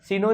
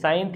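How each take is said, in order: First: The word is said as two syllables, see-no. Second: The word is said as one syllable, sine. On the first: The speaker calls it wrong. "सिनो नहीं है ये" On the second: The speaker calls it right. "साइन theta है ये"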